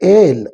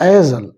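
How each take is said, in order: First: The s sound is silent in the word. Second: The s sound is pronounced in the word. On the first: "that is ಎಸ್ silent" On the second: "sometimes you can call as"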